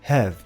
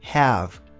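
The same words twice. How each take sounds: First: The vowel is a relaxed, neutral sound. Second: The vowel is a stronger, open sound. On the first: "um mais neutro" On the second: "Ou um mais forte"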